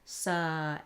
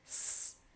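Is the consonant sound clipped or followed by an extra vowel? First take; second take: extra vowel; clipped. First: The consonant is followed by an added uh vowel. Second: The consonant is clipped with no added vowel. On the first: The speaker calls it wrong. "We're not saying sa" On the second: The speaker calls it right. "nice, clean consonant sounds"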